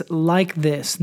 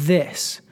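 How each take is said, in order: First: "Like" pressed firmly, "this" falling away; stress on LIKE. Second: Said in the usual way. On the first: Shown as a demonstration. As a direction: lean on the word "Like", let "this" drop. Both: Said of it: "Notice that he says".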